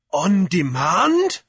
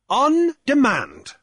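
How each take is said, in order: First: "On demand" drawn out slowly, rising high at the end; questioning rise. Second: "On demand" with a high, loud ON, falling at the end; assuring fall. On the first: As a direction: ask "On demand" as a slow, pointed question. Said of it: "asked Jeremiah". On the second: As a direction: affirm "On demand" slowly and firmly. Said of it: "Cornelius assured him". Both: A narrator's reading.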